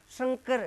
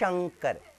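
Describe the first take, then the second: First: The first sound is a plain hissing s. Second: The first sound is a palatal sh. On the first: The speaker calls it wrong. "तो ये तो नस्ल है" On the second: The speaker calls it right. "शुद्ध क्या होना चाहिए बताइए? शंकर"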